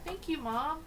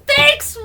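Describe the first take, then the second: First: It is said in a calm, low-key way. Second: It is said in an excited, gushing way.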